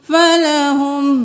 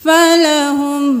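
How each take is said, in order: No difference in how they are said.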